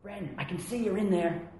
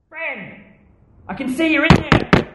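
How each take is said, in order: First: It is said with less intensity. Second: It is said with more intensity.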